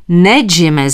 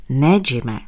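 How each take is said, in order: First: Louder exclaimed no; doctor shouting after leaving patient; called out. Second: Low, firm refusal; doctor refusing the patient, firm and low. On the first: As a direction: call after him to stop him. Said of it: "zvolal jsem ještě jednou". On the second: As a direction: plant your feet and say no. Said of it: "opakoval jsem co nejpevněji". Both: A narrator's reading.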